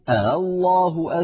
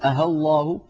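First: The second hamza is softened, between hamza and vowel. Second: The second hamza is replaced by a plain h sound. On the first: "يقول الله أذن لكم" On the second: "يقلبونها هاء خالصة"

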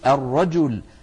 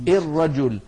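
First: The word begins with an open 'a' vowel. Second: The word begins with a vowel other than 'a'. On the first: The speaker calls it right. "بل يقولون الرجل" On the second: The speaker calls it wrong. "ولا يقولون الرجل"

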